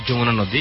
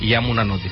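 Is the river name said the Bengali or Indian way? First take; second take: Bengali; Indian. First: The river name is said the Bengali way. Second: The river name is said the Indian way. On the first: "যেমন আমরা বলি যমুনা নদী" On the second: "ইন্ডিয়ানরা বলে ইয়ামুনা নদী"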